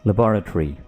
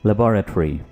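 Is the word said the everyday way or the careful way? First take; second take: careful; careful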